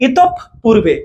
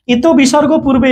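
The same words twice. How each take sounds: First: ইতপ পূর্বে split with a held p; doubled p sound. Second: ইত বিসর্গ পূর্বে with the sign's name spoken; sign read aloud. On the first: Teacher showing visarga doubles the consonant, held p in ইতপ পূর্বে. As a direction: close on itop, then release purbe in ইতপ পূর্বে. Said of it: "প দুইবার হবে". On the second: Teacher showing what we don't say, sign named inside ইত বিসর্গ পূর্বে. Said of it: "এরকম বলি না আমরা". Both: Shown as a demonstration.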